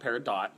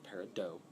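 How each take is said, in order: First: The final t is pronounced, following the spelling. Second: The final t is silent, not following the spelling. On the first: The speaker calls it wrong. "It's not peridot" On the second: The speaker calls it right. "it's peridot"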